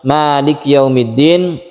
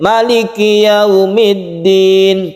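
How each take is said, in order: First: The first vowel 'ma' is held long. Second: The first vowel 'ma' is held short. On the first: It follows the reading of Hafs. "itu ma-nya dibaca panjang" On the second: It follows the reading of other recitation authorities. "ma-nya dibaca pendek"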